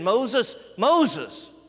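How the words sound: The name is called urgently, to get attention.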